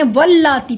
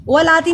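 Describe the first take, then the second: First: वल्लाती with a pressed double l; doubled laam. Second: वलाती with one light l; quick open va, then a single-l laa; single laam. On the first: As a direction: hold the l in वल्लाती before the long aa. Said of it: "वल्लाती पढ़ा". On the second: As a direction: say वलाती without doubling the l. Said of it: "वलाती नहीं पढ़ा". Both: Shown as a demonstration.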